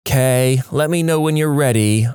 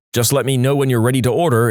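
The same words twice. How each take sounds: First: Imitating a put-upon, snippy tone; eye-rolling attitude. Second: Said in the usual way. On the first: Shown as a demonstration. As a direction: say it with an audible eye roll. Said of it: "eye roll". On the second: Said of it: "changes the tone of everything".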